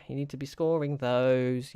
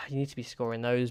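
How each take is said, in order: First: Slower, leaning on scoring; stressed scoring. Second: Said in the usual way. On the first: Real, not acted. Player scolding his striker, scoring pressed slowly. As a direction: drag out scoring in frustration. Frustrated at missed chances.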